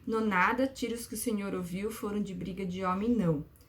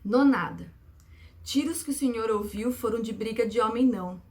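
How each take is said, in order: First: It is read flatly, without rhythmic phrasing. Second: It is read with lively rhythmic phrasing.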